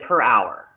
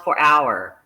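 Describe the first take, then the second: First: The first word is said like 'per'. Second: The first word is said like 'four'. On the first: The speaker calls it right. "instead of per hour" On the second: The speaker calls it wrong. "she kept saying four hour instead of per hour"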